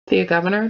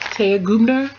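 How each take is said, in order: First: The surname is said with three syllables, like Governor. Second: The surname is said with two syllables, like Gubner. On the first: The speaker calls it wrong. "We've all been saying Thea Governor" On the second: The speaker calls it right. "let me say it right"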